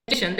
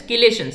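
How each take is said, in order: First: "chelation" said with a ch as in chair, chee-LAY-shun; alternative pronunciation. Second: "chelation" said with a hard k, kee-LAY-shun; general pronunciation. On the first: Teacher quotes some people's variant, "chelation" as chee-LAY-shun. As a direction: start "chelation" with ch, not k. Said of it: "Some people call it as". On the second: Teacher gives class the usual term, "chelation" as kee-LAY-shun. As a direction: say "chelation" starting with a k sound. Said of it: "pronounced as chelation". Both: Shown as a demonstration.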